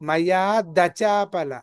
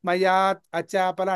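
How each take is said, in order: First: A d sound joins onto acāpala as dacāpala. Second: A t sound ends mayāt, separate from acāpala. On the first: The speaker calls it right. "దా కావాలి నాకు" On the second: The speaker calls it wrong. "మయాత్ అచాపల అంటున్నారు"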